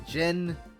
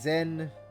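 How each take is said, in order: First: The name begins with a J sound. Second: The name begins with a Z sound. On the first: This is how the current game says the name. "This game, he's he's pronounced as Jin" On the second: This is how the remake says the name. "In the Sky remake, they're pronouncing it as Zin"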